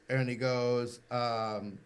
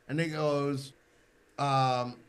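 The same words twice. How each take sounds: The two takes are said the same way.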